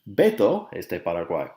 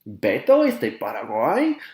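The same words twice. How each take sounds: First: It is said as a statement. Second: It is said as a question.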